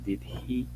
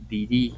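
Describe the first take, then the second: First: Both words are said fully, with the h. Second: The words run together and the h drops. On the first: "salvo que hablen un tanto más despacio, sin tanta prisa" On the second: "cuando ya están muy acelerados hablando"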